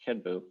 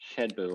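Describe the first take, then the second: First: The word begins with an h sound. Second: The word begins with a sh sound. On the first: "If you say headbu, that's pretty close" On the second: "If you say shedbu, that's pretty close"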